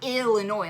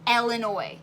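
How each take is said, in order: First: The first syllable sounds like 'ill'. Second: The first syllable sounds like 'el'. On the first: The speaker calls it wrong. "It's not Illinois. Like I'm ill" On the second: The speaker calls it right. "It's Illinois, like Ellen"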